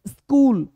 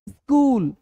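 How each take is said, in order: No difference in how they are said.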